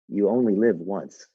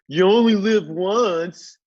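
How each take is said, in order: First: It is said in a serious, weighty tone. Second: It is said in a flippant, mocking tone. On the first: Each choice matters because life is precious. "someone who respects the sanctity of life" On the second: It is fine to be reckless with choices. "that they're making fun of the concept and not taking seriously"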